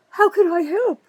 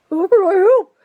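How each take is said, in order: First: High, louder sing-song fake helpfulness; mocking the mayor. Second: Much higher and louder sneering parody; louder mock mayor. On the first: Mocking the mayor's phony offer of help, high and sarcastic. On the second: Mocking the mayor again, even higher and louder sneer. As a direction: hammer the fake offer even harder. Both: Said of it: "Well, Kramer".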